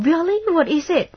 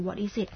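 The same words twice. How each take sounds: First: Really? pitched high and loud, eager; showing gladness. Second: Asked softly with a touch of worry; quiet, concerned question about bad news; a little sorrow. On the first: Replying eagerly to a friend's good news, high and loud. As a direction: jump at the news with delight. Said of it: "แสดงความดีใจหน่อย". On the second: Responding to a friend's bad news, softly concerned. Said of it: "เมื่อกี้อาจจะแสดงความทุกข์นิดนึง". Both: Shown as a demonstration.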